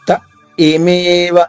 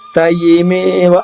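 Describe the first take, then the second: First: There is a brief pause after the first syllable. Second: The words run together with no pause. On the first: The speaker calls it right. "ఆగితే త ఏమేవ" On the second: The speaker calls it wrong. "ఆగకపోతే యాకి ఈకారం ఇచ్చినట్టుగా త ఏమేవ అవుతుంది"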